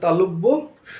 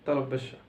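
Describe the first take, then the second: First: A short gap separates the two parts. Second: The two parts run together with no gap. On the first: The speaker calls it right. "কিন্তু এটা তালব্যস্য নয়, এটা তালব্য স" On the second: The speaker calls it wrong. "তালব্যস্য বলি"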